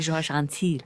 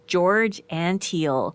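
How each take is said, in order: First: The name is said with French pronunciation. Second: The name is said with English pronunciation. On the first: The person is treated as French. The speaker calls it wrong. "I always say it with a French pronunciation" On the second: The person is American. The speaker calls it right. "but it's not. He's American"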